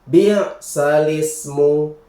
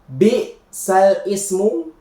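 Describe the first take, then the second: First: The l runs smoothly into ismu without a break. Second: There is a separate glottal onset before ismu. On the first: The speaker calls it right. "tapi dibaca bi salismu" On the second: The speaker calls it wrong. "Jadi cara membacanya bukan bi sal ismu"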